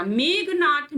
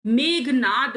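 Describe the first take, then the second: First: मेघनाथ ending in aspirated "th"; slow मेघनाथ with "-naath"; "th" closing मेघनाथ; wrong final consonant. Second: मेघनाद ending in voiced "d"; slow मेघनाद with "-naad"; "d" closing मेघनाद; correct final consonant. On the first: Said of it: "मेघनाथ नहीं होता". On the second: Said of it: "मेघनाद होता है". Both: Shown as a demonstration.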